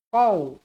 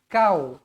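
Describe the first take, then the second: First: It starts with a deep throat q sound. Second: It starts with a plain front k sound. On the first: The speaker calls it right. "Qaf. Jadi bacaan dia qau" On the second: The speaker calls it wrong. "Bukan kau"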